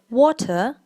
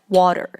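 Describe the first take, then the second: First: It is said with a British accent. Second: It is said with an American accent. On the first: "British people say water" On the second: "Americans say water"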